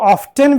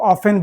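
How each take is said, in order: First: The t sound is pronounced in the middle. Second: The t sound is silent in the middle. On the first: "इसको ऑफ्टन भी कहते हैं" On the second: "टी को हम silent कर देते हैं"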